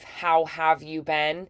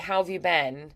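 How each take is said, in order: First: Each word is said fully and separately. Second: The words are reduced and linked together smoothly.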